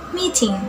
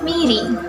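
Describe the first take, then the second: First: It is said in an Australian accent. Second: It is said in an American accent. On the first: "In Australian accents" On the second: "In American accents"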